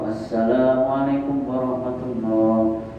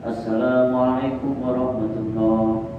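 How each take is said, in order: First: It is quick, but the long vowels stay full length. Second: It is quick, but the long vowels stay full length.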